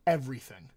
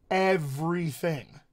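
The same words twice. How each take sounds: First: Said in the usual way. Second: Slow, stretched-out "Everything"; emphatic EVERYTHING. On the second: Real, not acted. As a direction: draw out "Everything" syllable by syllable for weight. Repeats word for emphasis.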